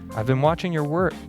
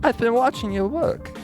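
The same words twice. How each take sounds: First: It is said in his plain voice. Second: It is said in a Southern accent.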